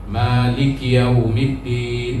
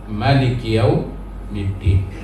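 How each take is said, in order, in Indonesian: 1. Vokal pertama Malik dibaca panjang. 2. Vokal pertama Malik dibaca pendek.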